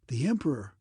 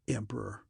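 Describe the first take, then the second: First: A guardsman's cry of startled wonder; mild astonished exclamation. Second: Low, softer scornful word; spat in contempt. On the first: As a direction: gasp out the name in astonishment. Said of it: "cries of startled wonder". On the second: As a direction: spit the title out with disgust. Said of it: "Kel Aaron spat on the ground". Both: A narrator's reading.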